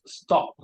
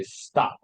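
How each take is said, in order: First: "stop" with a rounded British O; British short O. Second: "stop" as "stahp", open unrounded vowel; American vowel. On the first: Teacher showing British vowel, "stop" with rounded O. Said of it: "not up". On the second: Teacher showing how Americans say it, "stop" as "stahp". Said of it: "In America, they would say". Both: Shown as a demonstration.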